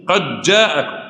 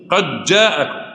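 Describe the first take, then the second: First: The d is merged into the following j sound. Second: The same.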